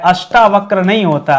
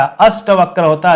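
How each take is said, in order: First: अष्टावक्र with long आ after ष्ट; अष्टावक्र, stressed long टा; wrong form said. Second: अष्टवक्र with short ट, no आ; correct form said. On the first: (गलत रूप: अष्टावक्र में लंबा टा) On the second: (सही रूप: अष्टवक्र में छोटा ट) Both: Shown as a demonstration.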